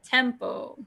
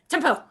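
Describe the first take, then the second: First: The word is said at ordinary speed. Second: The word is said very quickly. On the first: "And now let's say it normally" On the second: "let's practice saying tempo really fast"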